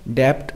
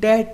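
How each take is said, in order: First: A b sound is heard before the t. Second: No b sound is heard before the t. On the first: The speaker calls it wrong. "हम डेप्ट नहीं बोलेंगे" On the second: The speaker calls it right. "इसको हम डेट बोलेंगे"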